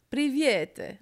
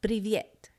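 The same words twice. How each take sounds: First: High, loud mock-Italian attempt at Russian; mock Italian accent. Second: Said in the usual way. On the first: Teasing the co-host's pronunciation, exaggerated Italian accent. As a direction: imitate an Italian trying to speak Russian. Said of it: "an Italian trying to speak Russian".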